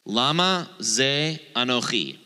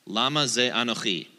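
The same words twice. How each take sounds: First: "Lama ze anochi" said slowly, LAma stressed, ch as a throaty kh; careful Hebrew phrase, the ch rasped from the throat; Hebrew pronunciation. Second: "Lama ze anochi" again at normal pace, LAma stressed, ch as kh; quicker second read of "Lama ze anochi"; Hebrew, repeated. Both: Shown as a demonstration. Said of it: "And the Hebrew is this".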